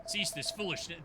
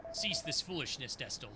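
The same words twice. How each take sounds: First: Low, commanding rebuke repeated; stern old mentor. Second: Low, commanding rebuke; stern old mentor. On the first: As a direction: order the pupil to stop once more. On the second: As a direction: order the pupil to stop. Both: Acted.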